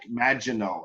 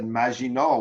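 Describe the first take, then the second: First: The g is a hard English j sound. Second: The g is soft, French style, no j. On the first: An American would say it this way. "an American would see magic, Maginot, and that j, j sound" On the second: A well-spoken person would say it this way. "we might have even put a French accent in, right? And, and soften the G"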